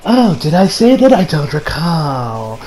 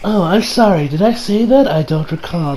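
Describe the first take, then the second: First: Mock pompous prick. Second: A light smug fake apology trailing off softer; mock pompous prick. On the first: Shigechi denying the deal to his friends, smug and slow. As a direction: feign innocence like a smug snob. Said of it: "acts like a pompous prick". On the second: Shigechi feigning he forgot the promise, smug. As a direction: play dumb with a sneer in the voice. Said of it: "perfection there".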